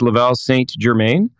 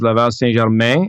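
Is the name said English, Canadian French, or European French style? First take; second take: English; Canadian French. First: The name is said with English pronunciation. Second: The name is said with Canadian French pronunciation. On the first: "when it's English" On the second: "in French"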